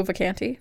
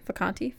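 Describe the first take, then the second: First: Vacanti with the A of "cat"; surname with short A. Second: Soft Vacanti with the A of "father"; surname with broad A. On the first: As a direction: say Vacanti as vuh-KAN-tee. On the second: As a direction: say Vacanti as vuh-KAHN-tee, quieter. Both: Shown as a demonstration. Trying out the surname's pronunciation.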